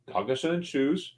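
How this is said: It is said in a lively, animated way.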